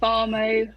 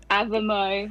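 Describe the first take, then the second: First: "Avamo" as uh-VAH-mo; long AH in Avamo. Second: "Avamo" as AV-uh-mo; short A in Avamo. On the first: Singer shows radio host her name, "Avamo" said uh-VAH-mo. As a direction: say "Avamo" with a long, open middle AH. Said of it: "is it Avamo they call you". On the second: Singer shows the northern version, "Avamo" said AV-uh-mo. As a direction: say "Avamo" with a short, front first A. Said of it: "which they think's hilarious 'cause my mum's from". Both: Shown as a demonstration.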